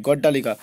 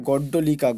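First: গড্ডালিকা with a long া after ড্ড, as people usually say it; common wrong pronunciation. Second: গড্ডলিকা with a short অ after ড্ড, no long a; correct pronunciation. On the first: Teacher showing students the common wrong form গড্ডালিকা, long a after ড্ড. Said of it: "আমরা কিন্তু গড্ডালিকা বলে বেশি উচ্চারণ করে থাকি". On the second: Teacher giving students the correct গড্ডলিকা, short অ after ড্ড. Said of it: "দেখো কিন্তু এটা ভুল". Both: Shown as a demonstration.

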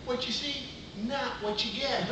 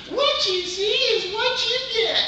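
First: See rises, then not what you get slowed; stress on see and not get. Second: High, slow sassy lady voice; the original catchphrase, high and drawn out; Geraldine line. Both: Shown as a demonstration.

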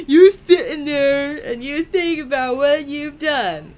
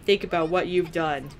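First: High, loud mock-parent telling-off; laughing mock scolding. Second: Said in the usual way. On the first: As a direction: scold playfully through laughter. Mock scolding game character, laughing.

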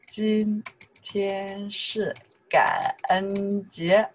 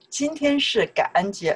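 First: Very slow, held syllables; drawn-out demonstration. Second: Said in the usual way. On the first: Shown as a demonstration. Teacher modelling a sentence for learners, very slowly. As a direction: stretch every syllable for learners.

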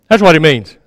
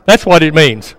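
No difference in how they are said.

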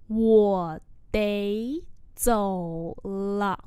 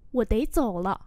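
First: Drawn out word by word; slow model reading. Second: Said in the usual way. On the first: Shown as a demonstration. Teacher modelling "I have to go" for learners, very slowly. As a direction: stretch each syllable, pausing between them.

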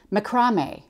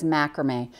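First: Macrame as muh-KRAH-may; Australian pronunciation. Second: Said in the usual way. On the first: Retold or imitated. Quilter showing how the designer says it, Australian-style macrame, muh-KRAH-may. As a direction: stress the long KRAH in macrame. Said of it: "how she says macrame". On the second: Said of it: "tell you how she says macrame".

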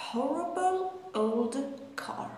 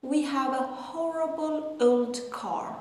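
First: Each word drawn out, very slow; very slow repeat. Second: Slow careful reading of the sentence; slow model sentence. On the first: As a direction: stretch each word for learners. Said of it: "model sentence repeated". (تکرار خیلی آهسته) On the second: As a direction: read it slowly for learners. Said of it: "model sentence". (خواندن آهسته و شمرده) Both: Shown as a demonstration.

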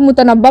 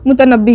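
First: "मुतनब्बा" ending in a long aa; common misreading. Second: "मुतनब्बी" ending in a long ee; recommended reading. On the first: Teacher shows students the common misreading, "मुतनब्बा" ending in -aa. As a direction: say "मुतनब्बा" with -baa at the end. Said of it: "बहुत सारे लोग मुतनब्बा पढ़ते हैं". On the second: Teacher tells students how to read the poet's name, "मुतनब्बी" ending in -ee. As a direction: say "मुतनब्बी" with -bee at the end. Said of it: "आप इसको मुतनब्बी ही पढ़िएगा". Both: Shown as a demonstration.

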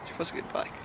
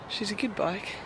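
First: Whispered, stress on was; whisper, leaning on "was"; wistful whisper. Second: Said in the usual way. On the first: Real, not acted.

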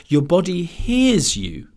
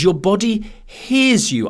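First: Slow "hears" with a falling close; stress on hears. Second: Slow, leaning on "hears"; stress on hears. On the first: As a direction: savour "hears" as the absurd word. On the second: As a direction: draw out "hears" slowly. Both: Retold or imitated. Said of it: "that was the word".

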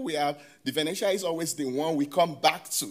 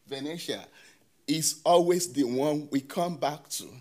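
First: Said in the usual way. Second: Venetian set apart, then always leaned on; stress on Venetian and always. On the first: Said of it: "and you can see the emphasis". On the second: Shown as a demonstration. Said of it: "Emphasis on Venetian, emphasis on always".

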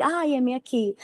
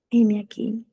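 First: Soft, higher-lilting mock readiness; mock eager. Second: Subdued, half-hearted answer; mock reluctant. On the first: Believer answering God's promise of blessing, mock eager. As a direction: play the all-too-willing believer, lightly. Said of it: "te voy a bendecir". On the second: Believer answering God's warning of suffering, mock reluctant. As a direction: play a hesitant believer giving in. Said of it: "te voy a poner a sufrir".

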